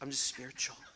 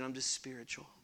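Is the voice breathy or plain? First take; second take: breathy; plain. First: It is said in a breathy voice. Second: It is said in a plain voice.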